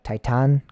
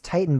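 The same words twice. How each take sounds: First: The second vowel is an open 'ah' sound. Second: The second vowel is a reduced English 'uh'.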